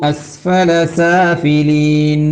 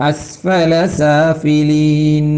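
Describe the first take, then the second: No difference in how they are said.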